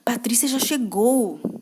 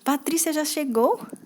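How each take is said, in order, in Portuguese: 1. É dito com um tom de medo. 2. É dito com um tom de surpresa. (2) "Quando está com surpresa"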